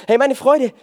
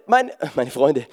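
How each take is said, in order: First: Freude said correctly without the n, higher and louder; the corrected Freude, pitched up; corrected word. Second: Freunde said by mistake with a laugh, lower and slow; laughing at the slip, say meine Freunde with the n; a misspoken Freunde, chuckling; slip of the tongue. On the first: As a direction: fix the slip, hit meine Freude clearly. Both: Real, not acted.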